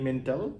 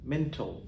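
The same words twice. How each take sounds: First: The final syllable does not sound like 'ol'. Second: The final syllable sounds like 'ol'. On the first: The speaker calls it wrong. "আমরা বলি মেন্টাল" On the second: The speaker calls it right. "উচ্চারণ হবে মেন্টাল"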